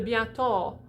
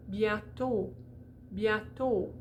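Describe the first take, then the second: First: Bientôt with an open aw ending; bientôt ending in ah with lips; wrong bientôt, open o. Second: Bientôt with a closed, rounded final o; bientôt, closed bright o. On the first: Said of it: "that would be open". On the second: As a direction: finish bientôt with a tight oh, marble in mouth. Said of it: "as if we have a marble in our mouth". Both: Shown as a demonstration.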